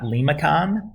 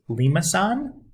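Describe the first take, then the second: First: The last syllable begins with a k sound. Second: The last syllable begins with an s sound. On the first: The speaker calls it wrong. "not Limicon, as students are apt to say" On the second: The speaker calls it right. "that's pronounced Limousin"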